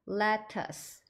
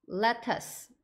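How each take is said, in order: Both takes have the same delivery.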